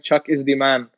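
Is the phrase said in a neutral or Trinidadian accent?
neutral. It is said in a plain, neutral accent.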